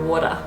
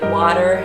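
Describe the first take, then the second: First: It is said in an Australian accent. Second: It is said in an American accent. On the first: "Australians go water" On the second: "Americans will say water"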